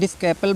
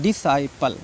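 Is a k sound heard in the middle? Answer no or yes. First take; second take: yes; no. First: A k sound is pronounced after the s. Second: No k sound is pronounced after the s. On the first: The speaker calls it wrong. "डिस्कैपल बोलते हैं कुछ बच्चे" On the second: The speaker calls it right. "सी silent है"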